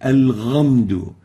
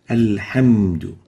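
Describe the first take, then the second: First: The second consonant is a voiced gargled gh. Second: The second consonant is a smooth breathy h. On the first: The speaker calls it wrong. "or with a ghain" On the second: The speaker calls it right. "We should pronounce the ha as a ha, like this"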